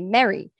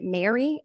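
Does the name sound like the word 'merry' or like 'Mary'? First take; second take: merry; Mary. First: The name sounds like the word 'merry'. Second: The name sounds like the name 'Mary'. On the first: This is the intended pronunciation of the name. The speaker calls it right. "we say Mary" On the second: This is how some other people say the name. The speaker calls it wrong. "some people pronounce it Mary"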